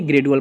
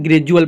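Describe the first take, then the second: First: ग्रेजुअल with a hard d, gre-du-al; ग्रेजुअल read with a plain d sound; wrong pronunciation. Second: ग्रेजुअल said the right way; correct pronunciation. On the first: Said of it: "ग्रेजुअल पढ़ेंगे, ना कि". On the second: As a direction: say ग्रेजुअल as gre-ju-al. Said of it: "ना कि". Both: Shown as a demonstration.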